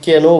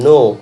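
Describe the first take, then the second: First: The word starts with a pronounced k sound. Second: The word starts with an n sound, k silent. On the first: The speaker calls it wrong. "কেন বলবে না" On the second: The speaker calls it right. "কে এর উচ্চারণটা কিন্তু হচ্ছে না"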